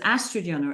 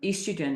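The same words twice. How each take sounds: First: It is said with the American pronunciation. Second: It is said with the non-American pronunciation.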